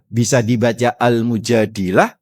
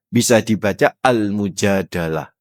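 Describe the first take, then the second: First: Al-Mujadilah said with an i in the middle syllable; pronounced Al-Mujadilah. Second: Al-Mujadalah said with an a in the middle syllable; pronounced Al-Mujadalah. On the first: Preacher shows the congregation the first reading, Al-Mujadilah. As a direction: say Al-Mujadilah, with -dil-. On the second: Preacher shows the congregation the second reading, Al-Mujadalah. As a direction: say Al-Mujadalah, with -dal-. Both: Shown as a demonstration.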